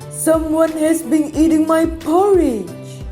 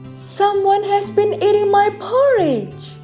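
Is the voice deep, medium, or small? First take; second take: deep; medium. First: It is said in a deep, gruff voice. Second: It is said in a medium-pitched voice.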